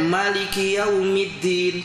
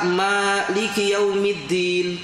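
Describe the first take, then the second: First: The first vowel of Maliki is kept short. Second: The first vowel of Maliki is drawn out long. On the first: It means being king of the Last Day. "kalau dibaca pendek Maliki Yaumiddin, tidak panjang" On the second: It means ruling over the Last Day. "dibaca Maliki Yaumiddin panjang"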